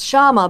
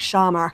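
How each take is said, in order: First: The name ends without an r sound. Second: The name ends with an r sound. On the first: "it's Shama" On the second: "they do the R's at the end, so it's like Shamar um, when they pronounce it with a British accent"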